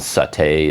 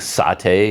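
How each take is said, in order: First: It uses the American stress pattern. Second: It uses the British stress pattern.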